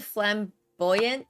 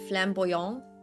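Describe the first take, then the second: First: It is pronounced with English sounds. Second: It is pronounced with French sounds.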